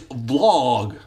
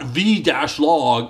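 First: The word is said as a single syllable. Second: The word is said as two syllables, vee-log. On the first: The speaker calls it right. "it's vlog" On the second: The speaker calls it wrong. "it's not V-log"

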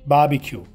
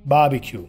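The two takes are said the same way.

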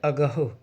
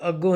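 First: It is three syllables with an h sound. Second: It is two syllables with a nasal ending. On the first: It means that which cannot be grasped. The speaker calls it right. "ਇਸ ਕਰਕੇ ਇੱਥੇ ਸ਼ਬਦ ਹੈ ਅਗਾਹੋ" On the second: It means in front or ahead. The speaker calls it wrong. "ਹੁਣ ਇਹਨੂੰ ਅੱਗੋਂ ਨਹੀਂ ਪੜ੍ਹਿਆ ਜਾ ਸਕਦਾ, ਜੇ ਅੱਗੋਂ ਪੜਾਂਗੇ ਪਾਠ ਗਲਤ ਹੋ ਜਾਣਾ"

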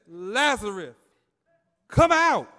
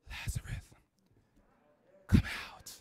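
First: The call is spoken loudly, with force. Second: The call is spoken quietly, without force. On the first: The command carries power. The speaker calls it right. "But when he said, ... Jesus called with a loud voice" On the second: The command has no power behind it. The speaker calls it wrong. "He didn't say, ... That didn't move nothing"

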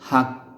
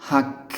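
The two takes are said the same way.

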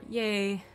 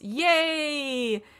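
First: The word is said with little enthusiasm. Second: The word is said with lively enthusiasm.

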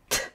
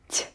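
First: The consonant is hard, not palatalized. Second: The consonant is soft, palatalized. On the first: "Это твердые звуки" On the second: "прочитать мягко"

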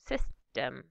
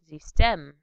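First: The stress is on the first syllable. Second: The stress is on the second syllable. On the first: This is the English pronunciation. "In English" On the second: This is the German pronunciation. "the stress is shifted to the second syllable in German"

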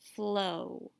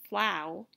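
First: The vowel is a long 'oh' sound. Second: The vowel is an 'ow' sound, as in cow. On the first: It is a real word. The speaker calls it right. "We try the more common long O sound first" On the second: It is not a real word. The speaker calls it wrong. "If we try the OW sound"

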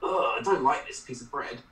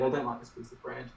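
First: It is said in a disgusted, repulsed tone. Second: It is said in a casual, offhand tone.

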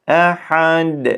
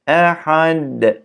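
The two takes are said the same way.

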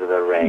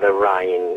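First: The vowel in rain has a standard sound. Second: The vowel in rain has a Cockney sound. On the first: The speaker calls it right. "en vez de decir" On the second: The speaker calls it wrong. "ella como Cockney, ... decía"

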